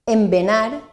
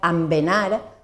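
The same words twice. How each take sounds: First: The first vowel is pronounced e. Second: The first vowel is pronounced a. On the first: The speaker calls it right. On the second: The speaker calls it wrong.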